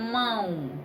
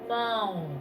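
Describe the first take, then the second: First: It is said normally with sound through the nose. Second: It is said with the nose pinched shut. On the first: "o sonzinho ele puxa lá do fundinho do nosso nariz" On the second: "Se a gente fechar, tapar o nariz"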